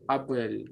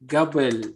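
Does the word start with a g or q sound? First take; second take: q; g. First: The word starts with a deep back q sound. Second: The word starts with a voiced g sound. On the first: This is the proper standard form. The speaker calls it right. "But the proper is qabl" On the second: This is a dialect form some people use. The speaker calls it wrong. "some people will say gabl"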